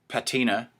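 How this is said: The word is said in an American way. "if you're American"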